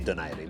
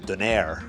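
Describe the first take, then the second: First: The name is said with a Filipino pronunciation. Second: The name is said with an English-style pronunciation. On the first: This is how it is pronounced in Filipino. "I say Donaire" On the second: This is how many people say it. "a lot of people say Donaire"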